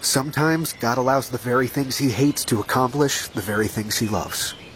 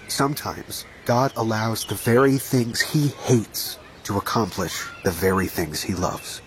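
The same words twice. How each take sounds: First: It is said at a normal pace. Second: It is said slowly.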